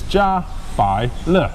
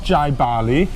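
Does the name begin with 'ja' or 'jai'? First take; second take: ja; jai. First: The name is three syllables: ja, bai, le. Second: The name starts with 'jai', then 'bali'. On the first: The speaker calls it right. "This is Ja Bai Le" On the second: The speaker calls it wrong. "this is not Jai Bali"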